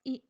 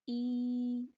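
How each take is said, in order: First: The vowel is cut off abruptly. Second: The vowel is stretched out long. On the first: "ना ही इतनी जल्दी हमने इसको अदा करना है कि इसके ऊपर झटका महसूस हो" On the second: "अगर हम इसको ज़्यादा खींच के अदा करते हैं तो फिर इसमें साथ या लग जाती है"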